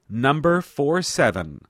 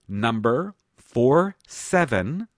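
First: It is said at normal speed. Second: It is said slowly.

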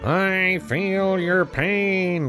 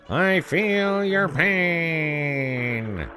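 First: It is said flatly, without feeling. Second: It is said with exaggerated sympathetic feeling. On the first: The speaker does not really care. "You don't sound it" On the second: The speaker pretends to care deeply. "Let's try it again"

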